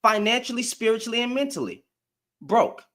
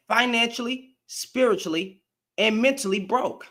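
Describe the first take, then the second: First: Said in the usual way. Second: Each word set apart, financially, spiritually, mentally broke; emphatic repeat. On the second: Real, not acted. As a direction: spell out "Financially", "spiritually", "mentally" one at a time. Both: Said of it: "Let me say that again".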